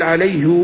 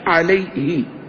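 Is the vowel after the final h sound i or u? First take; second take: u; i. First: The h is followed by a lengthened u vowel. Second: The h is followed by a short i vowel. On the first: This is the original form of the pronoun. "بالضم بالضم والصلة" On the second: This is the lightened form of the pronoun. "بالكسر"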